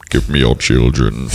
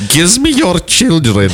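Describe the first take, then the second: First: Slow, very low monster voice; Krampus. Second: High, slow hammed-up German accent; mock Nazi accent. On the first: Acted. Host teased about looking like a monster, slow low creature voice. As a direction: demand it as a low, slow ogre. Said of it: "You look like Krampus". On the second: Friend requested the accent, high mock German voice. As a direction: draw it out in a cartoon German accent. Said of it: "say that with a Nazi accent".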